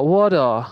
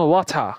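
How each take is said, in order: First: American accent. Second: British ওয়াটার with airy t, no final r; British accent. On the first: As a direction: say ওয়াটার the American way, "waw-da". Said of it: "American অ্যাকসেন্টে". (American উচ্চারণে "ওয়াডা") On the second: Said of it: "British accent". (British উচ্চারণে "ওয়াথা") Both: Shown as a demonstration.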